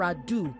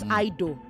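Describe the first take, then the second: First: The first syllable does not sound like 'I'. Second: The first syllable sounds like the word 'I'. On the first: The speaker calls it right. "it is without further ado" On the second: The speaker calls it wrong. "not I do"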